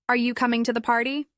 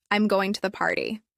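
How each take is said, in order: First: "Are you coming to the party?" rising at the end; rising question tone. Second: "I'm going to the party." falling at the end; falling statement tone. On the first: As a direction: lift "party" upward as a question. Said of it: "your tone typically rises". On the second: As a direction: let "party" drop as a plain statement. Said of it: "your tone generally falls". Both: Shown as a demonstration.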